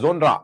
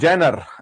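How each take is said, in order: First: The word starts with a 'jo' sound, ending 'nra'. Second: The word starts with a 'jay' sound, ending 'ner'. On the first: The speaker calls it wrong. "तो जोनरा word हमें नहीं बोलना है" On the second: The speaker calls it right. "उच्चारण की बात है, meaning वही है जेनर"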